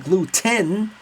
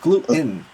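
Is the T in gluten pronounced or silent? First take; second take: pronounced; silent. First: The T is clearly pronounced. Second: The T is silent. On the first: The speaker calls it wrong. "she doesn't say gluten" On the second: The speaker calls it right. "silent T"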